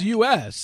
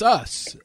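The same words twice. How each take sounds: First: It is spelled out as two separate letters. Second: It is said as the single word 'us'. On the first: The speaker calls it wrong. "I don't think it's U.S" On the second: The speaker calls it right. "I think it's Us"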